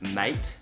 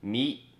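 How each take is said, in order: First: It is said with a full Australian 'mate' vowel. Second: It is said swallowed, sounding close to 'meat'. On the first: The speaker calls it right. "instead of mate like that" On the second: The speaker calls it wrong. "it's kind of like meat ... a more swallowed version of the mate"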